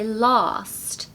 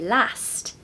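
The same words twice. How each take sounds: First: It is said in a southern British accent. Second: It is said in a northern British accent. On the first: "we say last" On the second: "similar to the Northern British accent in the U K, as they say last"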